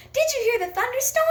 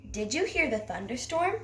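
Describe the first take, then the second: First: High, fast and loud, an excited shout; squealed with excitement, much higher and louder; excited exclamation. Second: Calm question, rising at the end; just ask it, curious, pitch lifting on thunderstorm; plain asking tone with a gentle rise on thunderstorm; question intonation. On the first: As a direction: fire the question off like exciting news. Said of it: "Well, I'm not excited about it". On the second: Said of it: "I'm asking a question". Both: Shown as a demonstration.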